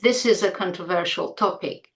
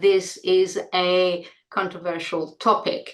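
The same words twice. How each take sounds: First: The a is a schwa linked to is. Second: The a is full and separate from is. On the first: The speaker calls it right. "it's connected to the Z and it's reduced to schwa" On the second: The speaker calls it wrong. "we don't say"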